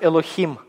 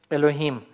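First: The h is a harsh throaty kh sound. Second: The h is a light breathy sound. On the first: The speaker calls it wrong. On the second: The speaker calls it right.

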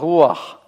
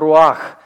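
First: The stress falls on the first syllable. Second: The stress falls on the second syllable. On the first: The speaker calls it right. "есть слово «руах»" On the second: The speaker calls it wrong. "не принимает ударение, поэтому нет слова «руах»"

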